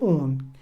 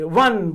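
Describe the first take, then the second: First: It is said with the vowel of 'moon'. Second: It is said with the vowel of 'won'. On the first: The speaker calls it right. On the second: The speaker calls it wrong.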